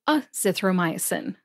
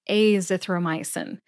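First: The first vowel is a short A sound. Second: The first vowel is a long A sound. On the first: "with a short A sound" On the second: "with a long A sound"

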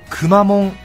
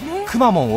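First: The word is said with a flat pitch. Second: The word is said with a pitch drop. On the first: It follows the local Kumamoto way of speaking. "平板化の地元の熊本弁らしさを踏襲するくまモン" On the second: It is the widely established way of saying it. "これまでこれだけ浸透したくまモン"

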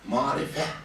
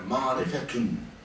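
First: The word ends on a vowel without t. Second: The word ends with a full t-un sound.

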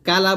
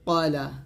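First: The first vowel is an open 'a' sound. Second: The first vowel is a rounded 'o' sound. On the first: The speaker calls it wrong. "কালা বলা যাবে না" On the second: The speaker calls it right.

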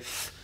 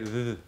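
First: The th sound is harsh and strong. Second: The th sound is soft with slight voicing. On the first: The speaker calls it wrong. "not as a harsh, like you don't say th" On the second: The speaker calls it right. "you say th, you put a like a small sound into it"

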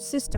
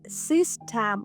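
First: The second vowel is a reduced schwa. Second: The second vowel is a full, clear vowel. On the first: The speaker calls it right. "ми говоримо" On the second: The speaker calls it wrong. "Замість того, щоб вимовляти"

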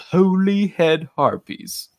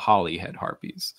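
First: The word 'Holy' is full and drawn out. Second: The word 'Holy' is short and reduced. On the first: The speaker calls it wrong. "has made a mistake in pronunciation" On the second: The speaker calls it right. "which is the correct pronunciation"

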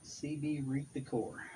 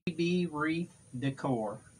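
First: It is said at a quieter volume. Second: It is said at a louder volume.

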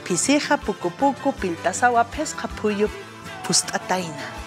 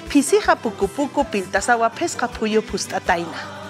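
First: The phrase is said at a slower pace. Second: The phrase is said at a faster pace. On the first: "Una vez más" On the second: "Ahora sí, más rápido"

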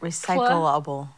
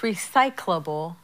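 First: The word keeps every syllable, like recycle-able. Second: The word is run together, dropping one syllable. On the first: The speaker calls it wrong. "she's saying it recyclable" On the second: The speaker calls it right. "It's like all smushed together and you lose a syllable"

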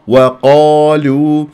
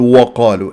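First: The opening w sound is kept light. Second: The opening w sound is made heavy. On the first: The speaker calls it right. "الواو مرققة" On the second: The speaker calls it wrong. "نتفخم الواو ... لا"

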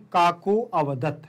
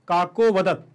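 First: The vowel before 'vadat' is clearly pronounced. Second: The vowel before 'vadat' is only faintly hinted. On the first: The speaker calls it wrong. "अगर आपको आ सुनाई दे रहा है तो मैं गलत पढ़ रहा हूं" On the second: The speaker calls it right. "तो ये हमारा शुद्ध उच्चारण होगा"

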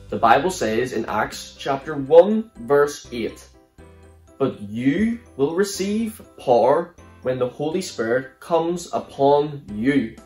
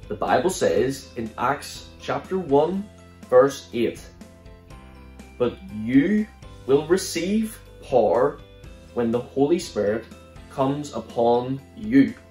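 First: It is said a bit faster. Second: It is said at a normal pace.

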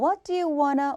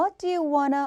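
First: "Want to" is blended into one reduced word. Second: The same.

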